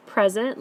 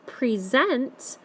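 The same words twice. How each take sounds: First: "Present" said PREZ-ent; stress on first syllable. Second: "present" said pre-ZENT, weight on the "sent" part; stress on ending part. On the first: Teacher naming what you receive, stressed PREZ-ent. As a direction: noun form "Present", PREZ-unt with weak ending. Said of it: "dark part of the word is at the front". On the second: Teacher showing the word next to it, pre-ZENT. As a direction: verb form "present", pree-ZENT. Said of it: "you're really saying that ending part". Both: Shown as a demonstration.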